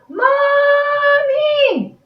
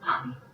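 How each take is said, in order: First: It is yelled as loud as possible. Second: It is said very quietly.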